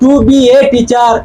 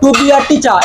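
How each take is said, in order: First: The article is a full 'ay' sound. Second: The article is a short, weak 'uh' sound. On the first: The speaker calls it wrong. "এরকম নয়" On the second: The speaker calls it right. "এরকম করে বলবো"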